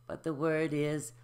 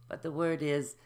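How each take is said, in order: Both takes have the same delivery.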